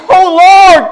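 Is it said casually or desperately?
desperately. It is said desperately, pleading.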